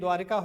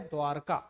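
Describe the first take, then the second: First: An 'i' vowel comes after 'dwar'. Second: No 'i' vowel comes after 'dwar'. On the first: The speaker calls it wrong. "द्वारिका होता नहीं है" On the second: The speaker calls it right. "होता है द्वारका"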